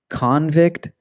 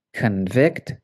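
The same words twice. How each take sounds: First: CON-vict, high and stressed on CON; first-syllable stress. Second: Con-VICT, with the stress on VICT; weak first syllable in convict, strong second. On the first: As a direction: say convict as the noun, CON-vict. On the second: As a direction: say convict as the verb, kun-VICT. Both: Shown as a demonstration. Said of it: "it can change the pronunciation".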